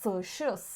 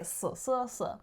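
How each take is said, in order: First: The middle syllable starts with an sh sound. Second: The middle syllable starts with an s sound. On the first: "like even if they say forty-four" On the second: "they would say s, s, s"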